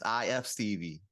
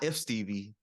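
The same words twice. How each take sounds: First: "I F Stevie" with I and F as separate letters; slowly name each letter in "I F Stevie"; letters spelled out. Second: "if Stevie" with "if" as one word; mistaken name reading. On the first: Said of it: "It's I F Stevie". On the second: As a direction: say "if" as a single syllable in "if Stevie". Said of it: "It's not if Stevie". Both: Shown as a demonstration.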